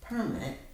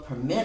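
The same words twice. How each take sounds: First: The stress is on the first syllable. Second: The stress is on the second syllable. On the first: It is a noun meaning an official document. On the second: It is a verb meaning to allow.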